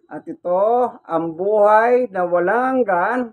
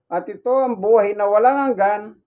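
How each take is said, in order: First: It is read slowly and deliberately. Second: It is read at a normal, quicker pace.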